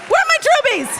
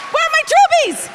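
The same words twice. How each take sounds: First: High, loud call stressing where; calling out again. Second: High, loud call stressing troopies. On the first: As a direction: punch where this time. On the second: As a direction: shout it to the bleachers. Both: Real, not acted. Calling out to crowd.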